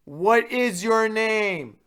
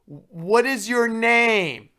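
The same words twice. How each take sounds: First: Loud, high, very slow demand, a bit strained; imitating RA yelling slowly at drunk student; mock RA shout. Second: Loud, high, very slow demand; imitating RA yelling slowly at drunk student; mock RA shout. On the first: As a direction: repeat it even louder and slower. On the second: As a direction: drag out each word like a patronizing shouted question.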